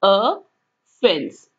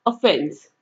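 First: ऑफेंस drawn out very slowly, uh-FENS; slow model. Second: Said in the usual way. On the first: Shown as a demonstration. Teacher modelling pronunciation very slowly. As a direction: stretch ऑफेंस sound by sound. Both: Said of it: "क्या होगी इसकी pronunciation?".

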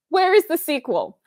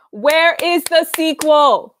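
First: Said in the usual way. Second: "Where is the sequel?" stretched out slowly with emphasis; slow, pleading demand on "the sequel"; drawn-out demand. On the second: Real, not acted. Streamer demanding a sequel from viewers, slow drawn-out plea.

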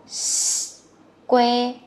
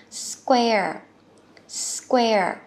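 First: "Square" drawn out as hissed s, "kwe", tiny "uh"; split with light schwa. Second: "Square" said quickly as one unit; blended into one syllable. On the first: Teacher adds a sound for learners, "Square" slowly split with a light final schwa. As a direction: pull "Square" apart, sound by sound. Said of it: "thêm một cái âm ờ". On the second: Teacher models it for learners, "Square" blended into one quick syllable. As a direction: run s, "kwe" and the light ending together in "Square". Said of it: "đọc nhanh thành một âm". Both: Shown as a demonstration.

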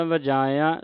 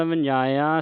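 First: Said in the usual way. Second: "ਵੰਜਾਇਆ" with a nasal ny sound; through the nose. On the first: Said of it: "ਵਾਵੇ ਨੂੰ ਟਿੱਪੀ". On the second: Shown as a demonstration. Teacher demonstrates the nyanya letter, nasal "ਵੰਜਾਇਆ". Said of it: "ਨੱਕ ਦੇ ਵਿੱਚ ਉਚਾਰਨ".

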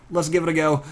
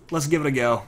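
No difference in how they are said.

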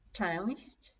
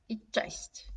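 First: Część with nasal ę, like "cheNshch"; pronunciation demo. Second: Cześć with an open e, like "cheshch"; pronunciation demo. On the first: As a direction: say część slowly with the nasal vowel. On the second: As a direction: contrast cześć, plain e, no nasal. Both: Shown as a demonstration. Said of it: "Proszę spróbować".

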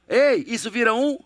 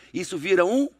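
First: Raised voice to pull the crowd in; calling out louder. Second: Said in the usual way. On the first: Real, not acted. Preacher calling the congregation for an answer, louder. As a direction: push it out louder to get an answer. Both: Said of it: "que eu tô gritando".

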